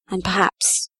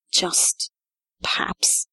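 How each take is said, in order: First: Said in the usual way. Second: Whispered perhaps, hinting. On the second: Acted. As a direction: breathe the word perhaps as a secret. Sheriff repeats perhaps, now whispered.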